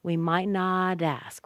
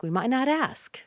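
First: Slow "might not ask", linked with a d sound; slowed model with t tapped in "not ask". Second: Higher, quicker "might not ask", smoothly linked; natural-speed "might not ask", t as d; fast might not. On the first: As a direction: draw out "not", then "dask". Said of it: "The T sounds like a D there". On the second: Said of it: "Might not is very fast". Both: Shown as a demonstration.

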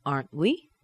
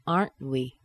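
First: "Aren't we" with held T, rising end; rising intonation. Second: "Aren't we" falling at the end; falling intonation. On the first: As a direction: let "we" swing up as a question. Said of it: "That T is held inside of the mouth". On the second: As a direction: stress "Aren't", drop on "we". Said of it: "let the intonation fall down". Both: Shown as a demonstration.

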